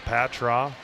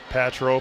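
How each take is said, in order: First: The name ends with an 'ah' sound. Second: The name ends with an 'oh' sound. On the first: The speaker calls it wrong. "It's not Patra" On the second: The speaker calls it right. "I think it's Patro"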